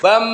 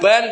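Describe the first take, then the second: First: The syllable ends with closed lips, an m sound. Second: The syllable ends with a clear n sound. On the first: The speaker calls it right. "tapi bam mingkem, masuk ke mim" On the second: The speaker calls it wrong. "bukan ban"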